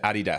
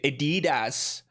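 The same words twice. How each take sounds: First: It is said in a non-American way. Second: It is said in an American way. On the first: "I said Adidas" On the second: "You Americans say Adidas"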